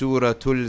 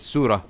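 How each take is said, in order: First: The word ends with a t sound. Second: The word ends with an h sound. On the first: The word is joined to the next word. "once you pronounce it together" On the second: The word is said on its own. "pronounce this by itself"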